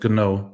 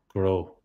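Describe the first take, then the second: First: The G is followed by an N sound. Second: The G is followed by an R sound. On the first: "instead of gno" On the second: "we say grow"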